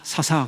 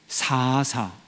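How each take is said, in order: First: The first vowel is said short. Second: The first vowel is drawn out long. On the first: The speaker calls it wrong. "사사가 아니라" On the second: The speaker calls it right. "앞에 그 긴 게 그게 맞는 발음이래요"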